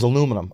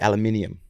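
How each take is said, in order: First: The word is said with four syllables. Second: The word is said with five syllables. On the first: This is the speaker's own usual form. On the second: This is how people across the ocean say it.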